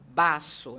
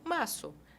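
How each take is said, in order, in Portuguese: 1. A primeira consoante é um b forte e duro. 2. A primeira consoante é um b suave e leve. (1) "mas não é um B forte. Eu não vou falar baço" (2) "eu falo baço. É suave"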